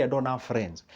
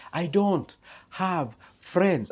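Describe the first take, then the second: First: Said in the usual way. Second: "I don't have friends" very slow, higher, leaning on don't; emphatic repeat. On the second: Real, not acted. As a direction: drag out "don't" to make the point.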